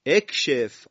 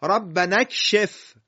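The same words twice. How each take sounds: First: "اکشف" begun alone as ekshef, loud; hamza with kasra. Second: High, loud, slow "ربنا اکشف" linked as rabbana-kshef; joined recitation. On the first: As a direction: start "اکشف" firmly on a short e/i. (شروع «اکشف» با همزهٔ مکسور) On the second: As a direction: run "ربنا" into "اکشف", dropping the hamza. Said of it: "ربنا رسیده به کلمهٔ چی؟". (تلاوت بلند، وصل «ربنا» به «اکشف») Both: Shown as a demonstration.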